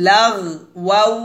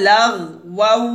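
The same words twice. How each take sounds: No difference in how they are said.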